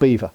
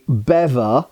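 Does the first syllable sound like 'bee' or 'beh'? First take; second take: bee; beh. First: The first vowel is a long 'ee' sound. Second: The first vowel is a short 'eh' sound. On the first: The speaker calls it wrong. "not beaver. it's not a small furry animal" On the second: The speaker calls it right. "It should really be called a bever, I think, by standard pronunciation"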